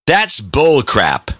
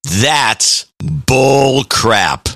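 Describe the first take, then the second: First: It is said at a normal, quicker pace. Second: It is said slower, deeper and drawn out.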